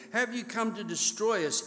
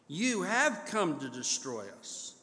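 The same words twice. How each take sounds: First: Said in the usual way. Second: Flat defiant statement, falling at the end; defiant assertion. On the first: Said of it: "is actually really a defiant assertion". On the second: Shown as a demonstration. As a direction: state it as a challenge, not a question. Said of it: "a defiant assertion".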